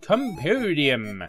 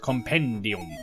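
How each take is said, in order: First: The word has an English pronunciation. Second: The word has a Latin pronunciation.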